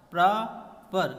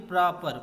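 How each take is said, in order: First: प्रॉपर slowly broken in two, "pra" then "per"; split into syllables. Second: Said in the usual way. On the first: Shown as a demonstration. Teacher showing students the two syllables, प्रॉपर slowly split as pra-per. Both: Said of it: "pra and per दो word हैं".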